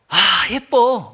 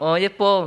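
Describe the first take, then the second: First: It sounds warm and sincere. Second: It sounds flat and indifferent.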